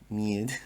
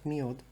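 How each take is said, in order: First: The vowel sounds like 'ye' as in 'yes'. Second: The vowel sounds like 'yo' as in 'yoga'. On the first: The speaker calls it right. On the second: The speaker calls it wrong.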